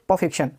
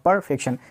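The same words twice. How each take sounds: First: The R sound is left silent. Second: The R sound is clearly pronounced. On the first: "Britishers जो होते हैं आर को silent करके बोलना है" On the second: "अगर आर को आप बोलना चाहेंगे तो क्या होगा जी"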